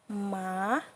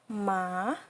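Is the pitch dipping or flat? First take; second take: dipping; dipping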